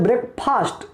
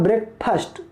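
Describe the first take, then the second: First: ब्रेकफास्ट with a long drawn "faast", the way students say it; wrong pronunciation. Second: ब्रेकफास्ट with a short crisp "fast", no long aa; correct pronunciation. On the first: Teacher showing the students' mistake, ब्रेकफास्ट with a long faast. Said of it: "लेकिन इसका pronunciation गलत है". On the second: Teacher giving the right sound, ब्रेकफास्ट with a short fast. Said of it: "सही pronunciation मतलब सही उच्चारण". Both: Shown as a demonstration.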